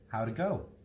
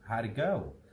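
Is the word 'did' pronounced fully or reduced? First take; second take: reduced; reduced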